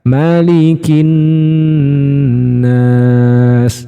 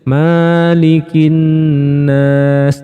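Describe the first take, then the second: First: The first vowel is kept short. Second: The first vowel is drawn out long. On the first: The speaker calls it right. "bukan fathah panjang tapi fathah biasa" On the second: The speaker calls it wrong. "emaknya biasanya dibaca panjang"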